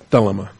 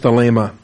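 First: The stress falls on the first syllable. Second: The stress falls on a later syllable.

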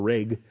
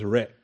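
First: It ends with an ordinary G sound. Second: It ends with a closure deep in the throat. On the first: The speaker calls it wrong. "that confuses it with a real G" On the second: The speaker calls it right. "you do stop the breathing there"

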